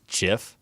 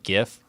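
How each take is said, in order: First: The word starts with a soft J sound. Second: The word starts with a hard G sound.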